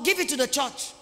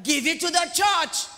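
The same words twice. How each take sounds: First: Said in the usual way. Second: Slow, raised "Give it to the church", each word pressed; forceful demand. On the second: Acted. Preacher presses unwelcome demand on congregation, forceful. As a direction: drive "Give it to the church" home loudly. Repeats what people dislike hearing.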